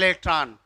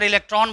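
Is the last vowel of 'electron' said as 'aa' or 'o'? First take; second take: aa; o. First: The last vowel becomes an 'aa'. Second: The last vowel is a plain 'o'.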